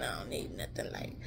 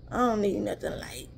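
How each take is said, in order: First: Whisper. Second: Said in the usual way. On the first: Real, not acted. Repeating to viewers she won't drink light teas, whispered. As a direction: drop to a secret whisper on "light".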